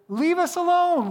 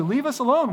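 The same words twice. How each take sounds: First: "alone" pitched much higher, drawn out slowly and falling; mock whiny sarcasm. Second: "alone" only a little higher, quick and short; mock sarcasm. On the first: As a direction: whine "alone" up high and slow like a mocking complaint. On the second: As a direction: toss off "alone" lightly raised and quick, a milder jab. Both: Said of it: "they were being sarcastic".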